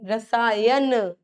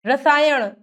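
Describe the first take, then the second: First: रसायन slow, ending in plain n; drawn-out "rasaa-yan"; dental n. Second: रसायन ending in curled-tongue ṇ; flapped end on रसायन; retroflex-ṇ error. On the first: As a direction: stretch रसायन, tongue on teeth at the end. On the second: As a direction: say रसायन wrongly as "rasaayaṇ". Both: Shown as a demonstration. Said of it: "न और ण की अशुद्धियां".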